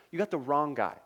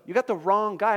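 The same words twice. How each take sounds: First: Said in the usual way. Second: Higher and louder, pleading; panicked protest. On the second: Acted. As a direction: insist they've picked the wrong man. Moses protests, repeated plainly later.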